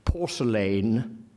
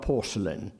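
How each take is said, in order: First: The word is said with a strong, full pronunciation. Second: The word is said with a weak, reduced pronunciation. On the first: This is the pronunciation the poet preferred. "he prefers instinctively a strong pronunciation" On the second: This is the pronunciation the poet avoided. "not porcelain"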